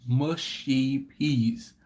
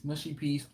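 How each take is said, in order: First: MUSHY PEAS slowly drawn out, word by word; deliberate emphasis. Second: Said in the usual way. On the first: Real, not acted. Explaining a disliked dish to viewers, slow stress on MUSHY PEAS.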